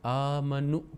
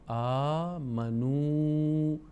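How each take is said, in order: First: The final vowel is cut short. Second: The final vowel is held long. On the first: The speaker calls it wrong. "इस वाव को लंबी आवाज़ के साथ अदा नहीं करते बल्कि सिर्फ पेश को अदा करते हैं" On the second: The speaker calls it right. "इसको लंबा करके हमने इसकी आवाज़ को लंबाई के साथ पढ़ना है"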